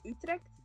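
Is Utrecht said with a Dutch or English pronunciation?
English. It is said with an English pronunciation. "in English that's just Utrecht"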